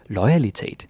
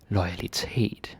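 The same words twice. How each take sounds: First: The stress falls early, as in English loyalty. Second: The stress falls on the final syllable. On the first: The speaker calls it wrong. "don't say loyalitet, like in English, like loyalty" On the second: The speaker calls it right. "we always put the stress on that"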